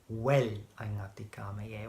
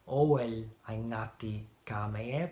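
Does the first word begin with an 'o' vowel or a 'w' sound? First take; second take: w sound; o vowel. First: The first word begins with a 'w' sound. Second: The first word begins with an 'o' vowel. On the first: The speaker calls it right. "but I say" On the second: The speaker calls it wrong. "I'm usually not saying"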